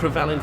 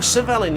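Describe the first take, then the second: First: The name starts with an R after the first consonant. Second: The name starts without an R after the first consonant. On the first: The speaker calls it wrong. "I've been calling him Crevelin for so many video games over the years" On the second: The speaker calls it right. "I looked up the pronunciation. It's Cervellin"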